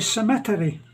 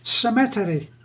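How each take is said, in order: First: It has the Filipino stress pattern, on another syllable. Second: It has the Filipino stress pattern, on another syllable.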